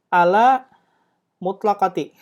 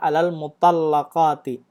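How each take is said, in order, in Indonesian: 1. Kata kedua diucapkan sebagai mutlaqati. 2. Kata kedua diucapkan sebagai mutallaqati.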